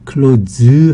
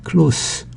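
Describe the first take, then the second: First: The word ends with a buzzing z sound. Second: The word ends with a hissing s sound. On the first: To shut something. "close 하면은 문을 닫다" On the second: Being near. "close 하면 가까운"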